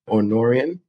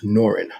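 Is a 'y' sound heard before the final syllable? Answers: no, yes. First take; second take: yes; no. First: A 'y' sound is heard before the last syllable. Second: No 'y' sound is heard before the last syllable. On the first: The speaker calls it wrong. "some people might call it Norian" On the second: The speaker calls it right. "it is pronounced Norin. I tell people, you know, the Y is silent"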